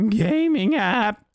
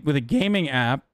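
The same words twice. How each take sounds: First: Exaggerated crack on gaming, drawn out slow; mock the crack, higher and slow. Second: Voice cracking. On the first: Shown as a demonstration. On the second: Real, not acted. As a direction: voice cracks on gaming. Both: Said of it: "Why did my voice crack?".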